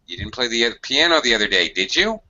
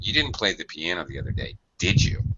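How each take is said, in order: First: The voice rises at the end. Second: The voice falls at the end. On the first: The speaker is unsure and just asking. "I'm just asking a question" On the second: The speaker is sure and it sounds like an accusation. "If I use falling intonation"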